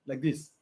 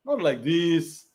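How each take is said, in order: First: Calm demo. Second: Slow contrast. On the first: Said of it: "how a man is supposed to be". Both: Shown as a demonstration.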